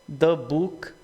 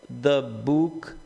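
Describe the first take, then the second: Both takes have the same delivery.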